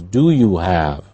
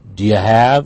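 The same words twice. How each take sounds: First: Each word is said fully and separately. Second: The words are run together and shortened.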